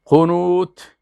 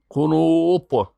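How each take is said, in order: First: قنوت ending on a light, plain t; long u, light t in قنوت. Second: قنوت ending on a heavy emphatic ط, drawn out slowly; stretched u and thick ط in قنوت. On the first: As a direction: say قنوت with a thin final t. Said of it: "اما به تی". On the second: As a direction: say قنوت slowly with a dark final t. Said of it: "با تایی که می". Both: Shown as a demonstration.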